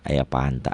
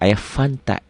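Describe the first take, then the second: First: The drink name begins with a p sound. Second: The drink name begins with an f sound. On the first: The speaker calls it wrong. "dibacanya F itu P" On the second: The speaker calls it right. "F kan tulisannya"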